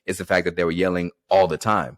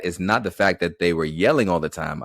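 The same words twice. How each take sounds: First: ALL stressed, falling through "the time". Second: YELLING stressed with a rise, "all the time" dropping away. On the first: Teacher correcting the emphasis to land on all. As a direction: move the weight off yelling onto all. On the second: Teacher showing the wrong emphasis, stress on yelling. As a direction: lean on the word yelling, toss off the rest. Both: Shown as a demonstration. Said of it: "I put the emphasis on the wrong word".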